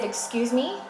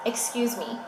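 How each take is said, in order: First: Higher, rising disbelief; affronted, pitched up at the end; indignant question. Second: Affronted, with a falling end; indignant statement. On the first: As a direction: question it, taken aback. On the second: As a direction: say it as a firm objection. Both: Retold or imitated. Indignant reply to refused epidural.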